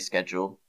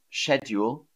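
First: It is said the American way. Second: It is said the traditional British way. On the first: "Americans pretty much always say schedule" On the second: "traditionally in English, it was schedule"

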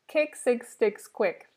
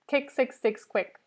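No difference in how they are said.

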